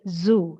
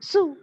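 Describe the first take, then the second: First: The word begins with a buzzing z sound. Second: The word begins with a hissing s sound. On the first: The speaker calls it right. "So it is zoo" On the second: The speaker calls it wrong. "But people tend to pronounce it as zoo. ... instead of that z sound, we use s"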